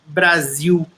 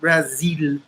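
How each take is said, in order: First: It is pronounced with Brazilian Portuguese sounds. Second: It is pronounced with English sounds. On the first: The speaker calls it right. "in Brazil, we say Brasil" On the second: The speaker calls it wrong. "not Brazil"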